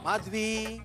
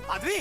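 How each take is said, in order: First: The name is called in a sweet, loving tone. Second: The name is called in an irritated tone.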